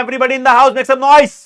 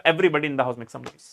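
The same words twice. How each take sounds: First: Hype call. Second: Quiet throwaway. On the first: Teacher hyping class to answer. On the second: Same call, tossed off quietly. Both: Acted.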